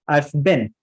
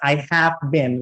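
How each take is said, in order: First: The word 'have' is contracted and reduced. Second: The word 'have' is said in full. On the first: The speaker calls it right. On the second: The speaker calls it wrong.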